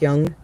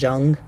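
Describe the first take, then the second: First: It begins with a Y sound, as in yes. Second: It begins with a J sound, as in jump. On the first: The speaker calls it right. "but it's pronounced Young" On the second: The speaker calls it wrong. "you'll probably read it as Carl Jung"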